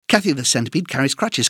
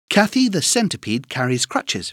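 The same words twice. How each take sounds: First: It is said at a very fast pace. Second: It is said at a faster pace. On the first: "Encore plus vite" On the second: "plus vite"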